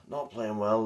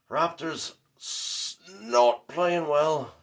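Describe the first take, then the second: First: Said in the usual way. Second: Drawn out slow, higher and louder, mock mourning; mock lament. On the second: Fan mourns his team's loss to viewers, slow mock lament. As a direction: wail it out like a hammed-up eulogy.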